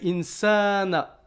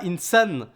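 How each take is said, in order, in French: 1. La voyelle après le s est longue. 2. La voyelle après le s est courte. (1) "c'est insana" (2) "c'est pas insan"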